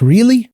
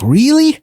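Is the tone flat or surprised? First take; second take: flat; surprised. First: It is said flatly with no feeling. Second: It is said with clear surprise in the voice. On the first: It is a plain question without showing feeling. The speaker calls it wrong. "كسؤال بشكل فلات كده" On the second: The speaker is genuinely amazed. The speaker calls it right. "انا فعلا بستغرب"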